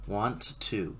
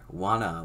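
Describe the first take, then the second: First: The two words are said fully and separately. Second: The two words are smudged together into one.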